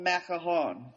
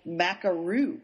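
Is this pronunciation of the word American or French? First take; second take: French; American. First: The word is said the French way. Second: The word is said the American way. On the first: "that's the French pronunciation" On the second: "The American English pronunciation is actually macaroo"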